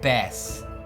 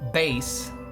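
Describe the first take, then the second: First: The vowel is short, as in 'cat'. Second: The vowel is long, as in 'face'. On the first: It names a fish. "That's that's a fish" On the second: It names a guitar. "that's the guitar"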